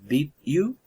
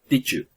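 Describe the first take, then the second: First: The two words are said separately. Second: The two words blend into one sound.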